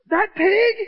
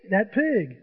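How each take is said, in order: First: High, loud, rising disbelief; incredulous question. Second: PIG falling to a firm stop; matter-of-fact confirmation. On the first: Player hears they will eat it, incredulous. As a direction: ask it aghast, pitch shooting up. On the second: Guide confirms which PIG they will eat, matter-of-fact. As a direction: confirm it evenly, PIG going down in pitch. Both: Retold or imitated.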